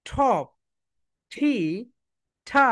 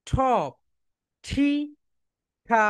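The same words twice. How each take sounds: Both takes have the same delivery.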